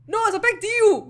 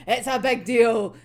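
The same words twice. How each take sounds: First: Louder, higher insistence on big; raised, emphatic protest. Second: Big leaned on, slow and firm; slower, heavier restatement of big deal; slow stress on big. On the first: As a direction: insist it really matters. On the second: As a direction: press the word big slowly. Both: Real, not acted.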